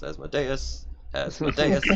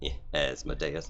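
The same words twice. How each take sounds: First: "Asmodeus" climbing higher and louder each time; "Asmodeus" said rising, mock-dramatic. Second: Said in the usual way. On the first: Shown as a demonstration. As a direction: sing the name up in a mock chant. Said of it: "Thank you, Nick".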